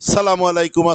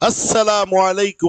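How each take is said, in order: First: The greeting is clipped and slurred together. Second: Every syllable of the greeting is pronounced distinctly. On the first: The speaker calls it wrong. "বোঝা যায় না" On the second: The speaker calls it right. "স্পষ্ট শুদ্ধ সালাম দিতে হবে"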